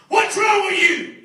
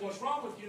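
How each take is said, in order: First: High, sharp challenge; loud-ish high retort, acted out; confrontational challenge. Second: Much softer, offhand question; casual aside. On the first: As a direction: square up and demand an answer. Young man confronts him, retold. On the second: Retold or imitated. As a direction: drop it to a quiet conversational aside. Casual replay of the challenge.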